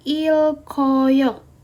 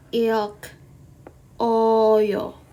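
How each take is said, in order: First: The consonant runs straight into the vowel. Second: The consonant is split off from the vowel. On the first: The speaker calls it right. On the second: The speaker calls it wrong.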